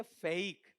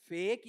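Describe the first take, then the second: First: फेक with a gliding vowel, "fay-ik"; second pronunciation option. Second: फेक as one syllable with a single e vowel; slow, drawn-out फेक, "fehk"; first pronunciation option. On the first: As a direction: slowly glide फेक from e into i. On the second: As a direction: hold one pure e in फेक. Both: Shown as a demonstration. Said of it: "ए या ए".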